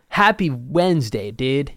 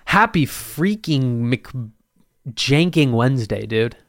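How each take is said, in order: First: Said in the usual way. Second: Slow, drawn-out bro greeting; douchebag voice. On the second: Pretend. Podcaster hamming a bro greeting to his listeners, lightly mock douchebag. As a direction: ham up the cool-guy hello. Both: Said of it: "I sounded like a real douchebag right there".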